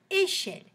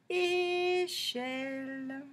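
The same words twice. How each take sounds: First: Said in the usual way. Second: Échelle very slow, both syllables held; a long É, then a long CHELLE; drawn-out syllables. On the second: Shown as a demonstration. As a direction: stretch Échelle out on level, sustained tones. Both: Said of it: "on va chercher tous les mots".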